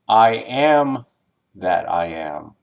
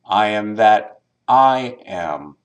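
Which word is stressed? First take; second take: first am; second I. First: The stress is on the first am. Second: The stress is on the second I.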